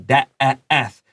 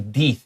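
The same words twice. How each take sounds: First: The vowel is said as a short E. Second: The vowel is said as a long E. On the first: The speaker calls it right. "This is a short E" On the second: The speaker calls it wrong. "we don't say death"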